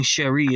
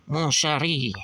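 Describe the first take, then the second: First: Said in the usual way. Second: Lightly put-on French accent. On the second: Comic reader trying out Lady Liberty's lines, French accent. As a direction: say it with a touch of French. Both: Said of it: "she's gotta have a French accent".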